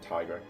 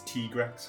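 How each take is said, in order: First: The name starts like 'tiger', as in tiger rex. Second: The name does not start like 'tiger'. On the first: This is the speaker's own habitual pronunciation. "continue to call him Tigrex" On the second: This is the official pronunciation. "the official pronunciation is Tigrex"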